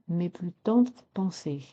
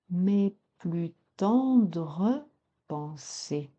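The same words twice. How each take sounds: First: The final e of tendres is dropped. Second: The final e of tendres is sounded. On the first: The speaker calls it wrong. "Ne pas dire" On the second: The speaker calls it right. "mais prononcer"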